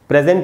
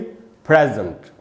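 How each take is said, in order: First: The stress is on the second syllable. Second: The stress is on the first syllable. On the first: The speaker calls it wrong. "Present नहीं बोलेंगे" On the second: The speaker calls it right. "ए पर ही ज्यादा रुकना है"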